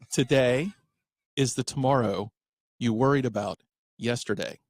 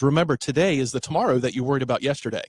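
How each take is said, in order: First: It is said slowly. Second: It is said at a normal pace.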